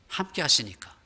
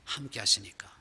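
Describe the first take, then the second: First: Said in the usual way. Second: 함께 하시니까 whispered, unvoiced and soft. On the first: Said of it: "repeated softer". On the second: Shown as a demonstration. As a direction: breathe 함께 하시니까 as a hushed echo. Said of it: "whispered repeat". (함께 하시니까를 속삭이듯)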